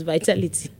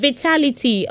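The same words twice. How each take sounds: First: First syllable of vitality said "vye"; vitality with long i. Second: Vitality pitched high, starting "vih"; short "ih" opening Vitality. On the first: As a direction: say vitality as vye-TAL-i-tee. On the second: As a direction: say Vitality as vih-TAL-i-tee, higher. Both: Shown as a demonstration. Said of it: "how do you pronounce the word".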